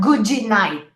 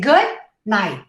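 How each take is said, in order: First: An extra vowel follows the d of good. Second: It has two syllables and the d is barely heard. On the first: The speaker calls it wrong. "Not goody night" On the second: The speaker calls it right. "Two syllables"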